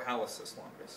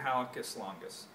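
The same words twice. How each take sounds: First: "hallucis" with a soft S sound before the ending; soft C pronunciation. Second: "hallucis" with a hard K sound before the ending; hard C pronunciation. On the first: Teacher offering the other pronunciation, "hallucis" said with an S. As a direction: say "hallucis" as HAL-uh-siss. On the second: Teacher naming the foot muscle, "hallucis" said with a K. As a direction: say "hallucis" as HAL-uh-kiss. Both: Shown as a demonstration. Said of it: "or hallucis longus".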